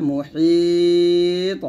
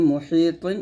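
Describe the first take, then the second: First: "মুহিত" with a very long held ই, bouncing final ত; long madd with qalqalah. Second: Said in the usual way. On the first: Shown as a demonstration. Teacher shows learners the stop, "মুহিত" drawn out with a bounced ending. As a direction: stretch the ই in "মুহিত" three alifs, then echo the ত. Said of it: "তিন আলিফ টান দিয়ে তটা কলকলা". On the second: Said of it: "দুই জের তিন আছে".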